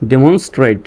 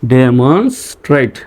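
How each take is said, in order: First: Said in the usual way. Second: Slow "demonstrate" in separate chunks; teacher's slow sounding-out; syllable by syllable. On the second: Shown as a demonstration. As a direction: piece "demonstrate" together for learners. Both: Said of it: "ট্রেট উচ্চারণ হয়".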